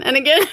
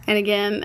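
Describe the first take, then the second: First: Louder, higher second "again" with a rise; "and again" thrown out louder with a rising end; emphatic repeat. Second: Said in the usual way. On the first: Shown as a demonstration.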